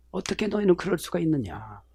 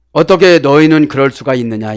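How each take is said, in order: First: 너희는 leaned on, much softer, rising at the end; soft rising question. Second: 어떻게 hit hard, firm and full voiced; 어떻게 너희는 with weight on 어떻게; stress on 어떻게. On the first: Preacher repeats the phrase softly, rising, stress on 너희는. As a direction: ask 어떻게 너희는 quietly, lifting the tail. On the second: Preacher translates the Greek phrase, firm stress on 어떻게. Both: Shown as a demonstration. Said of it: "이 말이에요".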